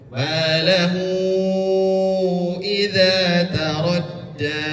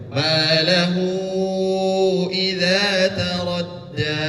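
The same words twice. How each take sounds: First: The long vowel is held for five beats. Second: The long vowel is held for four beats. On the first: "Dibaca lima harkat juga boleh" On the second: "Empat harkat juga boleh"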